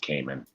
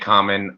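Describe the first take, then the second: First: The first vowel sounds like 'cay'. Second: The first vowel sounds like 'com'. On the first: This is the original Japanese pronunciation. "I think the Japanese pronunciation is for mask is Cayman" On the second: This is the pronunciation many people commonly use. "so many people say common"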